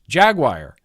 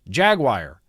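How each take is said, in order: First: Jaguar is pronounced in an American way. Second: The same.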